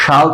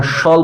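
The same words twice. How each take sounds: First: শাল with a clear open "aa"; full vowel kept. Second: শল as reduced "shol", no open aa; schwa dropped. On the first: Teacher shows the unreduced form, শাল with full aa. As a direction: say শাল as "shaal", vowel fully sounded. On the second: Teacher shows what is really said, reduced শল. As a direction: say শল with the "aa" left out. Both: Shown as a demonstration. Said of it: "আ সাউন্ডটাকে আমরা বাদ দিয়ে দিয়েছি".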